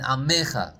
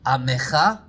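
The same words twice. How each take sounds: First: The stress is on the middle syllable. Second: The stress is on the last syllable. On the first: "sometimes you could have it on the Mem" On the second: "on the Chaf Sofit in the word Amecha"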